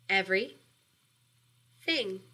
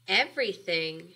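First: The word is split, with a clear break. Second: The word is said whole, with no break. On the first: "and then we're going to take that word apart" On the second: "We're gonna have a compound word"

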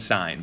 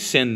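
First: The vowel is long, rhyming with 'line'. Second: The vowel is short, rhyming with 'win'. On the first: The speaker calls it right. "That is the way to properly pronounce these" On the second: The speaker calls it wrong. "Don't say sin though"

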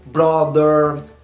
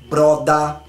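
First: It is said with an American accent. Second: It is said with an Australian accent. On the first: "Nos Estados Unidos, por exemplo, a letra ER, eles falam" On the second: "Aqui é"

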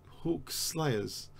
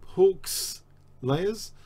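First: The s sound begins the second word. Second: The s sound ends the first word. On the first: People who kill hawks. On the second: Layers belonging to a hawk.

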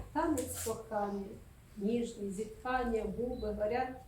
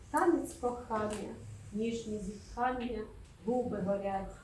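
Both takes have the same delivery.

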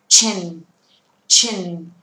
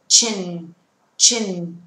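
Both takes have the same delivery.

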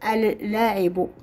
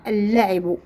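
First: The article's L is clearly pronounced separately. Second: The article's L merges into one doubled L. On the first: The speaker calls it wrong. "لم نقول اللاعب" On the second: The speaker calls it right. "قلنا اللاعب"

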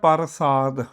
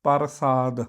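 No difference in how they are said.

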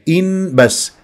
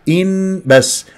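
Both takes have the same delivery.

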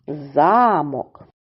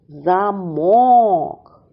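First: The stress is on the first syllable. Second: The stress is on the second syllable. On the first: "Це замок. Дерев'яна або кам'яна споруда" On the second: "Наголос падає на другий склад"

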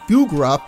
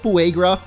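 First: The first syllable sounds like 'foo'. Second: The first syllable sounds like 'fway', as in Fuego. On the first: The speaker calls it wrong. "I was also thinking about Fugruff" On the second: The speaker calls it right. "which is more like Fuegruff, because Fuego"

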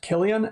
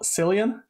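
First: The name begins with a hard K sound. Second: The name begins with a soft S sound. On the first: The speaker calls it right. "his name is pronounced Cillian" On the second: The speaker calls it wrong. "and not Cillian"

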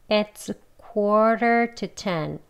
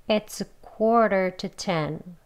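No difference in how they are said.

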